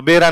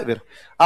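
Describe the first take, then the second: First: बेरा with a clear b sound; standard pronunciation. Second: वेरा with v instead of b; Jalori pronunciation. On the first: Teacher contrasting the western Rajasthan word for well, बेरा with b. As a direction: say बेरा starting with b. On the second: Teacher showing how Jalore people say the word for well, वेरा with v. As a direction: swap the b for v, वेरा. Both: Shown as a demonstration. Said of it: "इनके क्या हो जाता है?".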